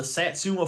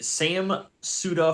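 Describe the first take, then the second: First: "Satsuma" said as one word, sat-SOO-ma; "Satsuma" fixed, one smooth word; corrected town name. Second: "Sam Suda" said as two words, Sam then Suda; "Sam Suda" read wrong, split into Sam and Suda; mispronounced town name. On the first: Host reading the corrected town name as "Satsuma". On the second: Host reading the race town name wrong, as "Sam Suda". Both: Real, not acted.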